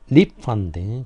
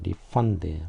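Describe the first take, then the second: First: The stress is on the first syllable. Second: The stress is on the second syllable. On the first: It is the noun, a repayment. "명사로 하게 되면은 앞에를 좀 강하게 발음이 되겠죠" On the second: It is the verb, to give money back. "동사니까 refund"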